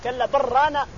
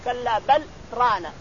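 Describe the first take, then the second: First: بل runs straight into ران without pause. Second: A brief pause separates بل from ران. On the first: The meaning changes. The speaker calls it wrong. "إذا قلت كلا بل رانا صار المعنى يتغير" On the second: The word ران is heard clearly. The speaker calls it right. "شكت لطيفة عندك لازم تقول كلا بل رانا علشان يبان الران"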